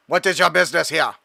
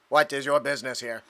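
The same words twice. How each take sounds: First: Odd mechanical drone voice. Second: Flat robotic drone voice. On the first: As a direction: question them like a patrol drone. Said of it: "why my drone sounds like that". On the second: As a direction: speak it like a machine. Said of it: "Give him a robotic voice". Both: Acted.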